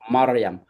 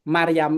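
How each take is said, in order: First: The r is pronounced heavy and thick. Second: The r is pronounced light and thin. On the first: The speaker calls it right. "r-nya itu tebel" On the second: The speaker calls it wrong. "Kalau kita bilang Maryam itu mereka bingung"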